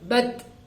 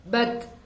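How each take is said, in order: First: The final t ends with a short breathy release. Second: The final t ends with a short breathy release.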